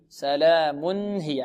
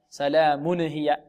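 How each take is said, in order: First: The tanween nun is pronounced clearly and plainly. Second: The tanween nun is bounced with an added vowel. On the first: The speaker calls it right. "إذن نقول سلام هي سلام هي، هكذا نطقها" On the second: The speaker calls it wrong. "لا نقول سلام هي سلام هي، نقلقل حرك التنوين"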